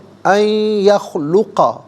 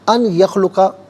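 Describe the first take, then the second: First: The n merges nasally into the y. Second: The n is kept separate before the y. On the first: The speaker calls it right. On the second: The speaker calls it wrong.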